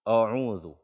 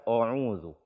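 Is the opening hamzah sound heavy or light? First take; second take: heavy; heavy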